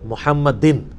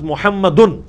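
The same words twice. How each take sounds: First: The word ends with the vowel i before n. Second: The word ends with the vowel u before n. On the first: The word follows a preposition. "دروشی میں کیا ہے محمدن. کیوں؟ علی آ گیا" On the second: The word is the subject of the sentence. "حالت رفع میں ہوتا ہے لفظ محمدن"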